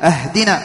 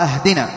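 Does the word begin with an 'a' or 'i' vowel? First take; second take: a; a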